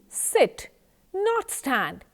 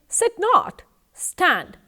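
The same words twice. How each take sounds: First: The pause comes after the word 'sit'. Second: The pause comes after the word 'not'. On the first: The listener should sit, not stand. "when I tell you sit, not stand, I want you to sit and do not stand" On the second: The listener should stand, not sit. "If I say sit not, stand, I want you to stand and not sit"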